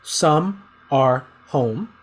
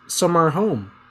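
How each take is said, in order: First: Each word is said separately and fully. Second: The first two words blend into one word. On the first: "I'm going to read these, the words uh, uh, separately" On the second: "But it's going to be pronounced"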